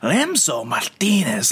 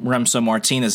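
First: The name is said with exaggerated Spanish enunciation. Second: The name is said plainly, without exaggeration. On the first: Others overdo the name to show off their Spanish. The speaker calls it wrong. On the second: The owner of the name says it naturally. The speaker calls it right.

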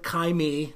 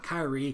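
First: The name ends with a 'me' sound. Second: The name ends with a 'ree' sound. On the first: "I said Kyrie" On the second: "not Kyrie"

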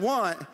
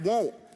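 First: The word is said with a standard 'want' vowel. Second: The word is said with a Southern 'won't' vowel. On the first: "instead of want" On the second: "that's how you say it in the South"

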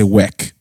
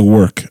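First: The vowel sounds like 'e' in 'bed'. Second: The vowel sounds like 'er' in 'her'. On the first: The speaker would sound Ghanaian. "I don't say weck" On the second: The speaker still sounds Nigerian. "I'm still Nigerian, you know, because I still say work"

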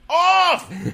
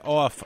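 First: The word is exclaimed loudly and forcefully. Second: The word is said flatly, without exclamation.

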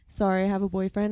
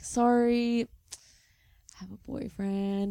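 First: It sounds curt and dismissive, closing the conversation. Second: It sounds lingering and inviting, leaving things open.

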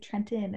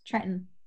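First: The t sounds are clearly pronounced. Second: The t sounds are dropped. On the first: "we don't say Trenton" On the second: "It's Trenton"

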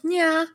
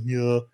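First: It is said in a high voice. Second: It is said in a deep voice.

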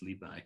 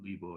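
First: The second syllable is pronounced bai. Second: The second syllable is pronounced bo. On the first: This is the modern everyday pronunciation. "they rather vulgarly called him Li Bai" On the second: This is the older, polite reading pronunciation. "The polite way to refer to him was Bo"

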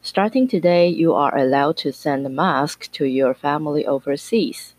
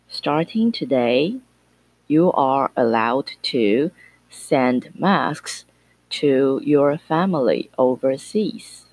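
First: It is read at a normal speed. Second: It is read at a slow speed.

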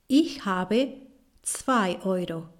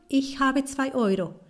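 First: The sentence is said at a slower pace. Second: The sentence is said at a faster pace.

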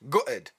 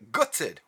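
First: The word is said in a local accent. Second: The word is said in a standard pronunciation.

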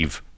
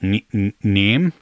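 First: The name ends with a V sound. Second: The name ends with an M sound. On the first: The speaker calls it right. "how do you say ... Neve" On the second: The speaker calls it wrong. "otherwise I would do exactly what you said"

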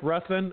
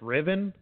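First: It is said with a 'th' and two syllables. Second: It is said without 'th', like 'Riven'. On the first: "it looks just like Ruthven" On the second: "it's actually pronounced Riven"

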